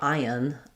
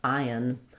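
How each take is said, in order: Both takes have the same delivery.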